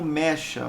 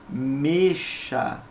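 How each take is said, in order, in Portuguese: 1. A vogal tônica é aberta. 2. A vogal tônica é fechada. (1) "você não produz como mecha" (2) "ela tem o som fechado, ... você produz como mexa"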